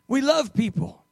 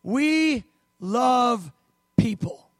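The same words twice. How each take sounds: First: "We love people" joined in one phrase, stress on love; emphatic repeat. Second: "We love people" with each word stretched and set apart; emphatic. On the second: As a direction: lean slowly on every word: We, love, people. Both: Real, not acted. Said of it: "I just want to emphasize this".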